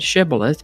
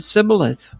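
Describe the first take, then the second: First: The word begins with an SH sound. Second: The word begins with a plain S sound. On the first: The speaker is from one group, the Gileadites. "pronounced the word with the S H sound" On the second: The speaker is from the other group, the Ephraimites. "pronounced it Sibboleth without the S H sound"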